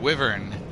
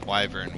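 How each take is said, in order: First: The first vowel is a short 'i' sound. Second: The first vowel is a long 'eye' sound. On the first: "I said wyvern" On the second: "wyvern with a I sound"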